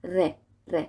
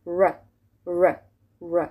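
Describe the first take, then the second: First: "ر" tapped with the tongue tip; Persian R. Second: "ر" as an untrilled English r. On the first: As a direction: say "ر" at the front of the tongue. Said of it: "ر و از جلوی زبون من". («ر» فارسی با نوک زبان) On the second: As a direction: say "ر" from further back, no tap. («ر» انگلیسی، از عقب دهان) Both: Shown as a demonstration.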